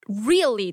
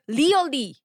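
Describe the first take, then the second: First: The word is said with a standard English accent. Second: The word is said with a Korean accent. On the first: "I couldn't say really that word before" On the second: "Like Korean pronunciation"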